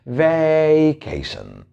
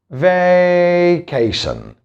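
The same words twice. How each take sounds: First: Slow, stretched "vacation" as vay-KAY-shun; teacher exaggerating "vacation" to show the American way; exaggerated American pronunciation. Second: "vacation" stretched slowly with a flat "veh" first syllable; teacher showing the wrong way to say "vacation"; wrong pronunciation. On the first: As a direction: overdo the American "vacation", long vay at the start. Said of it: "you have to pronounce it this way". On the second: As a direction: drag out "vacation" as veh-KAY-shun, the way not to say it. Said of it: "Surely we can't pronounce it this way".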